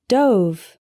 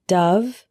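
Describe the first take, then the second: First: DOVE rhyming with stove; long O in dove; past-tense pronunciation. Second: DOVE rhyming with love; short "uh" vowel in Dove; bird pronunciation. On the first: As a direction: say dove as DOHV. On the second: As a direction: say Dove as DUV. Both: Shown as a demonstration. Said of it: "dove and dove".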